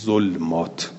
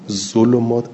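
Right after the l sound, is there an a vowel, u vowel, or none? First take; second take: none; u. First: The l is followed by no vowel. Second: The l is followed by a u vowel. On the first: "به سکون لام" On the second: "اجمع القراء على ضم اللام"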